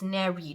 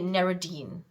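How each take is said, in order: First: The name ends short, with an 'id' sound. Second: The name ends with an added 'deen' syllable. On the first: The speaker calls it right. "It's it's Nerid or something like that" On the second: The speaker calls it wrong. "I keep pronouncing it Neridine, but it's not that"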